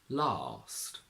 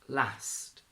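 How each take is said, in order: First: It has a long 'ah' vowel. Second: It has a short flat 'a' vowel. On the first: "a long R in R P" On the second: "the R turns into a A"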